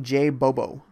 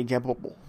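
First: Said in the usual way. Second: "J Bobo" whispered, J as soft zh. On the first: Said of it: "I seem to struggle". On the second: Shown as a demonstration. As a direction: breathe "J Bobo" as a "zhay bobo" whisper. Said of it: "struggle saying J Bobo".

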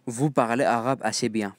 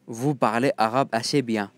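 Both takes have the same delivery.

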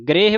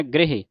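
First: ਗ੍ਰਹਿ as one long syllable, 'greh'; wrong reading. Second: ਗ੍ਰਹਿ as two short syllables, 'gre-he'; read this way. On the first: Teacher warns what not to read, ਗ੍ਰਹਿ as long 'greh'. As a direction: drop the final vowel of ਗ੍ਰਹਿ. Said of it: "ਵੀ ਨਹੀਂ ਪੜ੍ਹਨਾ". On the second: Teacher demonstrates how to read it, ਗ੍ਰਹਿ as 'gre-he'. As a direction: sound the final 'he' in ਗ੍ਰਹਿ. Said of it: "ਇਸ ਤਰ੍ਹਾਂ ਪੜ੍ਹਨਾ". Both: Shown as a demonstration.

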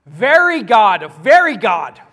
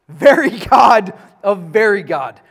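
First: "Very" and "very" slow, loud and heavy; stress on very. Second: "very" pressed hard both times, louder; emphatic reading. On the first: Teacher demonstrates to the class how to emphasize it. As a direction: drag out and hammer each "very". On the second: Teacher reads the creed emphatically to the class. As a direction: lean on each "very". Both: Shown as a demonstration. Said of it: "How do you emphasize that?".

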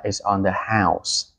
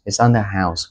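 First: Slow model phrase. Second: Said in the usual way. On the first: Shown as a demonstration. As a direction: say it like the restaurant treating you, slowly. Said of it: "nhà hàng mời thì nó sẽ nói là". (nhà hàng nói chậm rãi "It's on the house") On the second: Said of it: "có nghĩa là".

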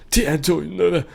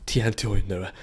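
First: Higher, put-on announcer voice for the title; playful announcer. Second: Said in the usual way. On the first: Shown as a demonstration. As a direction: announce the game name in a funny voice.

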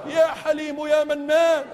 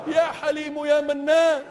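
The two takes are said the same way.

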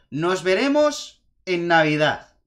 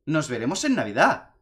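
First: Slow, louder villain line "Nos veremos en Navidad"; said aloud. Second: Said in the usual way. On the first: Retold or imitated. Eggman's closing threat retold, slow and loud. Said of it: "él dice en alto". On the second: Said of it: "es verdad que lo dice".

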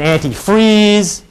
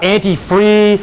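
First: "anti-freeze" with a clear closing z; full final sound. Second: "anti-free" ending on the open vowel; final sound dropped. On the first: Lawyer contrasting disputed words, "anti-freeze" with final z. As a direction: finish "anti-freeze" firmly on the z. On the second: Lawyer contrasting disputed words, "anti-free" without final z. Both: Shown as a demonstration. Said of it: "this whole question about anti-free and anti-freeze".

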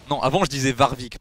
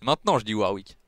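First: Warwick said with a French V, vaʁvik; "Warwick" with V and rolled French R; old way. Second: Warwick said English-style with W, wawik; "Warwick" starting on an English W; new way. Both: Shown as a demonstration.

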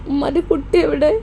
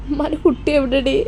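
First: Mother asking through tears, voice crying. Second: Said in the usual way. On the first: Acted. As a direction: choke up on the question, crying. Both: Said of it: "ഉമ്മ എന്താ കരയണത്?".

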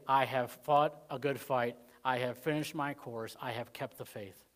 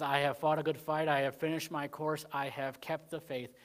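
First: Slow solemn recital. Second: Said in the usual way. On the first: Shown as a demonstration. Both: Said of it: "That they could say".

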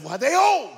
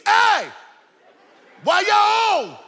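First: High, loud puzzled outburst; retold bewildered kid's question; baffled child's thought. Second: Very high, loud holler; child hollering from the back seat, acted out at full voice; retold kid's yell. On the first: Boy thinking to himself about his parents, comically baffled. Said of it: "I'm thinking to myself". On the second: Boy in the back seat yelling to his parents. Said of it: "I just yelled to the front seat".

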